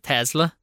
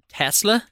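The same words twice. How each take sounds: First: The middle consonant is a slack z sound. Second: The middle consonant is a clear s sound. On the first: The speaker calls it wrong. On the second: The speaker calls it right.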